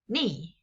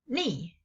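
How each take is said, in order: The two takes are said the same way.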